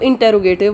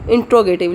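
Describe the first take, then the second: First: A vowel is sounded right after 'int'. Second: No vowel is sounded right after 'int'. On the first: The speaker calls it wrong. "सबसे पहले तो हम गलती कहते हैं" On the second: The speaker calls it right. "इसकी pronunciation है इंट्रोगेटिव"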